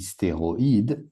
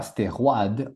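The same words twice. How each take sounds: First: Stéroïde with ï split: sté-ro-ïde; stéroïde, o then i apart; right pronunciation. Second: Stéroïde said as stérwad, oi like wa; the wrong French way: stérwad; wrong pronunciation. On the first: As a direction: say stéroïde giving o and ï each their own beat. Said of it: "on dit stéroïde". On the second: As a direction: say stéroïde with oi run together as wa. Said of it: "on dit pas stéroïde". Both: Shown as a demonstration.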